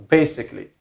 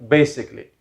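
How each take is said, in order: No difference in how they are said.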